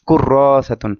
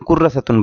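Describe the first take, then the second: First: The vowel after the r is drawn out. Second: The vowel after the r is short. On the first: The speaker calls it right. "এখানে একটা টান হবে" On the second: The speaker calls it wrong. "অনেকে কুর্রা সাতুন বলে"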